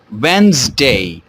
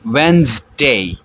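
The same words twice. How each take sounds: No difference in how they are said.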